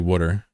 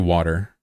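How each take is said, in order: First: It is said with a New York accent. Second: It is said with a plain American accent. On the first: "In New York, they say water" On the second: "I say water"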